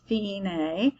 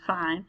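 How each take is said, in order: First: It is said as two syllables, fee-nay. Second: It is said as one syllable, like fine. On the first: The speaker calls it right. "it's fine" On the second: The speaker calls it wrong. "not fine"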